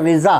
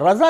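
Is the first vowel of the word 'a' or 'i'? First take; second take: i; a. First: The first vowel sounds like 'i'. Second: The first vowel sounds like 'a'. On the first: The speaker calls it right. "असल लफ्ज़ रिज़ा है" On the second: The speaker calls it wrong. "रज़ा नहीं, हम लोग रज़ा रज़ा रज़ा बोलते हैं"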